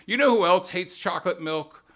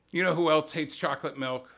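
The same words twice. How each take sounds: First: Louder, pointed "You know who else hates chocolate milk?"; mock pundit outrage. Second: Said in the usual way. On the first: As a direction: punch it like a host stirring the crowd. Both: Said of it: "so here's how it goes".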